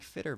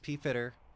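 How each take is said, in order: First: The name starts with an F sound, no P. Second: The name starts with a sounded P before F.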